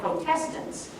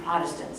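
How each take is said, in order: First: It is said so that 'protest' is clearly heard. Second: It is said so that 'protest' is not heard. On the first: This is the original form of the name. "they were originally called Protestants" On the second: This is the later, changed form of the name. "the pronunciation was altered to Protestants"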